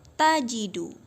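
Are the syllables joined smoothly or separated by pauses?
joined. The syllables are joined smoothly without pauses. The speaker calls it right. "tapi kita sambung ya nak"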